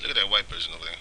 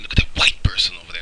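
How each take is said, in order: First: The tone is calm and neutral. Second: The tone is scornful and emotional. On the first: It is said politely. "I can say it decent" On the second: It is meant to hurt. "Put some emotion behind it, and you can hurt people"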